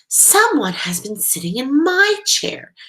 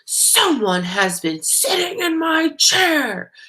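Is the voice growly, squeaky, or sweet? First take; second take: sweet; growly. First: It is a sweet, low voice. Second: It is a loud, growly voice.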